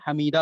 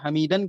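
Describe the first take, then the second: First: The word ends with a long a vowel. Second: The word ends with an n sound. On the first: The reader stops here to take a breath. "जब आखिर में हम वक्फ करेंगे, सांस तोड़ना चाहेंगे" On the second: The reading continues without stopping. "जब तनवीन पढ़ेंगे"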